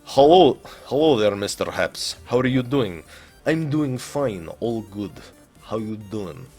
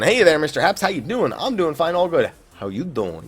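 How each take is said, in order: First: It is read in a put-on Russian accent. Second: It is read in his normal accent.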